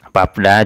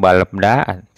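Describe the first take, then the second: First: Only a p sound closes the first syllable. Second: Both l and b sounds close the first syllable. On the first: The speaker calls it right. "yang dibaca verbnya, realnya tidak" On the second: The speaker calls it wrong. "atau balebda, tidak"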